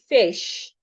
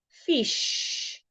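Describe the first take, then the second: First: The vowel is said with an A sound. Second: The vowel is said with an E sound. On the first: The speaker calls it right. "I should say fish" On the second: The speaker calls it wrong. "instead of saying fish"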